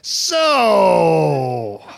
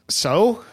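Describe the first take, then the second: First: It sounds disgusted, like being thrown up on. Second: It sounds embarrassed, like after ripping one's pants.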